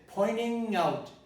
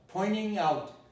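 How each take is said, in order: First: The t in pointing merges into the n. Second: The same.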